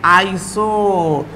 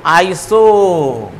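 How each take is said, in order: First: Drawn out. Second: Very slow stretched iso; drawn out. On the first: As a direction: lay it out slowly again. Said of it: "नाम के पहले". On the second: Teacher stretching the prefix so students remember it. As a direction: hold each sound long. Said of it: "नाम के पहले क्या जुड़ेगा". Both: Shown as a demonstration.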